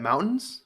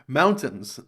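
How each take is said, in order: First: The middle T sound is dropped. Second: The middle T sound is clearly pronounced. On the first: "How would you even say that?" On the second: "Of course you put the T on in the in mountains"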